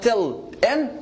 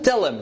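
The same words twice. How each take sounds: First: The h is pronounced, words said separately. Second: The h is dropped, words linked together. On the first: The speaker calls it wrong. "not tell him" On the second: The speaker calls it right. "just just like one word, linking"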